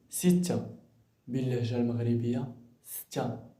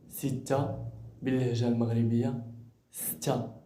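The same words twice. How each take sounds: Both takes have the same delivery.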